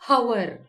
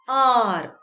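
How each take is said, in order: First: The word begins with an h sound. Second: The word begins with a vowel sound. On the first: The speaker calls it wrong. "not hour" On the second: The speaker calls it right. "it is pronounced as R"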